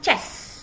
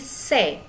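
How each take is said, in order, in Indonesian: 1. Kata ini berakhir dengan bunyi konsonan mendesis. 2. Kata ini berakhir dengan bunyi vokal terbuka. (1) "bukan chess ya" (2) "tapi C"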